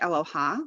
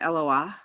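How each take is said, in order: First: The word ends with an 'h' then 'a'. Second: The word ends with 'a' then a breathy 'h'. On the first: The dot in the letter is ignored. "If the dot wasn't there, it'd be eloha" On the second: The dot in the letter is sounded. "So I'm with Amy on this one"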